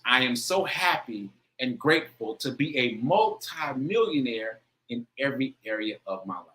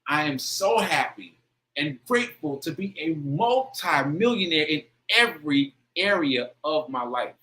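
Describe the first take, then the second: First: It is said with plain, moderate feeling. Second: It is said with strong, heightened feeling.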